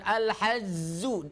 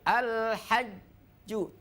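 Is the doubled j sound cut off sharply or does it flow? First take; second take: flowing; stopped. First: The doubled j sound flows on continuously. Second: The doubled j sound is cut off sharply. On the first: The speaker calls it wrong. "Jangan al-hajzu" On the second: The speaker calls it right. "Tapi al-hajju. Terputus suaranya"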